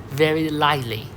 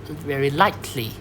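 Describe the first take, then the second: Both takes have the same delivery.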